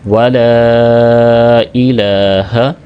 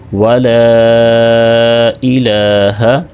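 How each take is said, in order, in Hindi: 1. l के बाद का स्वर लंबा खींचा गया है। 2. l के बाद का स्वर लंबा खींचा गया है।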